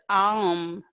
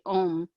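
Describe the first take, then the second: First: The vowel glides from ah to oo. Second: The vowel is a single plain oh. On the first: The speaker calls it right. "it's um, it's A U M" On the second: The speaker calls it wrong. "not om as in a lot of people want to say om"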